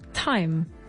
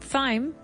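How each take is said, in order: First: The word starts with a plain T sound. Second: The word starts with a TH sound. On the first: The speaker calls it right. "we don't pronounce it with the T H. We say time" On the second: The speaker calls it wrong. "Not thyme"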